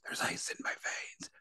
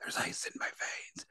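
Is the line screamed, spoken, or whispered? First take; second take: whispered; whispered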